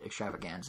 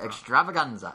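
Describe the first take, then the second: First: It is said plainly, with flat ordinary energy. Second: It is said loudly, like a dramatic announcer. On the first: The speaker calls it wrong. "If you say it extravaganza, Nintendo doesn't let you play" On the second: The speaker calls it right. "You have to announce it"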